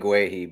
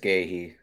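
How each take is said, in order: First: The name begins with a gw sound. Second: The name begins with a plain g sound. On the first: The speaker calls it wrong. "I've been saying Gwehi" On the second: The speaker calls it right. "but it's Gahey"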